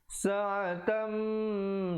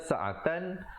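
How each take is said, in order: First: The final n merges into a held nasal. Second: The final n is pronounced plainly and clearly. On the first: "tapi bila bertemu mim, dua harakat"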